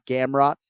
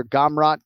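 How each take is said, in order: First: "Gamrot" with the a of cat, GAM-raht; short front a at the start of "Gamrot"; front first vowel. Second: "Gamrot" with ah in the first syllable, GAHM-raht; broad first vowel. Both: Shown as a demonstration. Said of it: "you s-, you hear".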